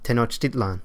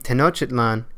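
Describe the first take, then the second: First: The stress is on the second-to-last syllable. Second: The stress is not on the second-to-last syllable. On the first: The speaker calls it right. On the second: The speaker calls it wrong.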